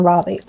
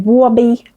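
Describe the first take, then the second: First: Said in the usual way. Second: "Robbie" with a W-like R and rounded vowel; imitated client's accent. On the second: Vlogger mimicking how a client said her son's name, accented. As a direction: say "Robbie" as a drawn, rounded "Wawby". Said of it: "again, she would say".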